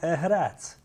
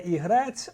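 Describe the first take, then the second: First: The name starts with the Hutsul vowel. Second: The name starts with the standard vowel. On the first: This is the local mountain form. "а Егрець" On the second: This is the familiar form. "не Ігрець"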